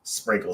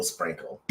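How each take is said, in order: First: Said in the usual way. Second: Whispered echo. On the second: Retold or imitated. Catchphrase said twice, second whispered.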